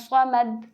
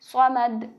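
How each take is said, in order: Both takes have the same delivery.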